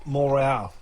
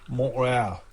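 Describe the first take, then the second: No difference in how they are said.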